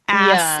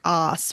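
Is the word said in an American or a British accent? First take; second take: American; British. First: The vowel is a plain American short 'a'. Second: The vowel is a long, open British 'ah'.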